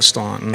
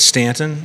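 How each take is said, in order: First: The first vowel sounds like 'aw' in 'saw'. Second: The first vowel sounds like 'an' in 'can'. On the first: This is how outsiders say the name. The speaker calls it wrong. "Don't call it Staunton" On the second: This is how locals say the name. The speaker calls it right. "it's Stanton"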